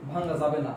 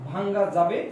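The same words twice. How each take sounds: First: ভাঙ্গা যাবে না with the tune falling on যাবে না, settled; firm answer. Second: ভাঙ্গা যাবে with the tune rising on যাবে, like a question. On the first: Teacher answering the class firmly, lower falling tune. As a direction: drop the tune, lower and final. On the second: Teacher posing "can it be broken" to the class, rising. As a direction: lift যাবে upward, unfinished. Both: Shown as a demonstration. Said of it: "গঠন মানে মনে রাখবেন".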